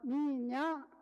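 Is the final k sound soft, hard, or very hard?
soft. The final k is soft and barely heard. This is how Malay or Indonesian speakers say it. "Orang orang Melayu atau orang Indonesia kalau menyebut um, minyak halus"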